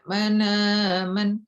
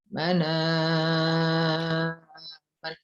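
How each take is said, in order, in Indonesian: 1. Vokal setelah hamzah dibaca pendek. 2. Vokal setelah hamzah dibaca panjang.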